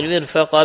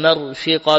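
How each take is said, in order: First: "مرفقا" with i after mim, a after fa; kasra on mim, fatha on fa. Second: "مرفقا" with a after mim, i after fa; fatha on mim, kasra on fa. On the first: Reader giving a Quran variant, "مرفقا" as mirfaqan. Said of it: "بكسر الميم وفتح الفاء". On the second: Reader showing Abu Jafar's reading, "مرفقا" as marfiqan. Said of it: "بفتح الميم وكسر الفاء". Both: Shown as a demonstration.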